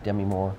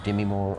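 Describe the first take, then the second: First: Demi as "DEM-ee"; alternative name pronunciation. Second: Demi as "dih-MEE"; alternative name pronunciation. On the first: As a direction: say Demi with a short e, stressed first. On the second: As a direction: say Demi with a short i, weight on the end. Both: Shown as a demonstration. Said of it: "however she wants to pronounce that".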